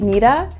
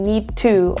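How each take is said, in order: First: The word 'to' is reduced to 'a'. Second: The word 'to' is said in full. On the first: "we say needa" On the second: "instead of saying need to"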